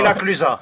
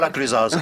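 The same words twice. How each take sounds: First: The final z sound is silent. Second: The final z sound is pronounced. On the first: The speaker calls it right. "on ne prononce pas. On dit la Clusaz" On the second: The speaker calls it wrong. "Et pas la Clusaz"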